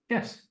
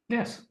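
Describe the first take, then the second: First: It is said with a smile. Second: It is said plainly, without a smile.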